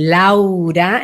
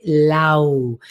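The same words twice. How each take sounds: First: "Laura" drawn out, open and full; full-voiced, stretched "Laura"; whole name, full strength. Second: "Lau" drawn out and turned inward; inward-held "Lau"; voice going inward. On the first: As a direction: give "Laura" its whole width. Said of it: "entero daría esta fuerza". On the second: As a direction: let "Lau" sink inside. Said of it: "va más hacia adentro". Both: Shown as a demonstration.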